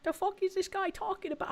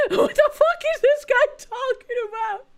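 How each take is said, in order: First: Said in the usual way. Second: Laughing. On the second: Real, not acted. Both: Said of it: "I almost said a slur".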